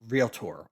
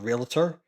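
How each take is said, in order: First: The word ends sounding like the word tour. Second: The word does not end sounding like tour. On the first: The speaker calls it right. "it is pronounced realtor" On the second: The speaker calls it wrong. "I always used to say realtor or realtor"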